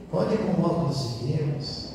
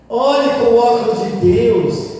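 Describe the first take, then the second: First: Soft, subdued appeal; gentle exhortation. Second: High, loud, drawn-out appeal; loud exhortation. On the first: Priest repeating his advice to families, gently. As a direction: urge them quietly, without force. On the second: Priest correcting a quarrelling couple's view, loud exhortation. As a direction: urge them slowly and forcefully. Exhorts, then repeats it softly. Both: Real, not acted.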